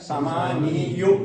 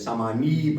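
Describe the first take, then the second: First: The word ends with a 'yu' sound. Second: The word ends with a plain 'ee' sound. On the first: The speaker calls it wrong. "लेकिन नहीं, उस पर हम जुम्मा नहीं पढ़ेंगे" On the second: The speaker calls it right. "उसको साकिन पढ़ेंगे।"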